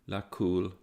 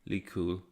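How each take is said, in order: First: The vowel after the l is 'a'. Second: The vowel after the l is 'i'. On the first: The speaker calls it right. "Verse one should be read without final vowels, thus" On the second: The speaker calls it wrong.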